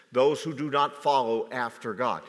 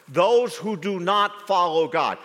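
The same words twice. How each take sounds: First: Said in the usual way. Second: Those repeated higher and louder; preached louder. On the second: Shown as a demonstration.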